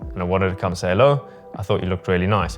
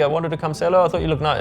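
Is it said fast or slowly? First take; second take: slowly; fast. First: It is said slowly. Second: It is said fast.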